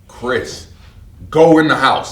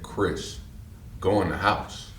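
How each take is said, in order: First: It is said at full loudness. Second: It is said a little louder.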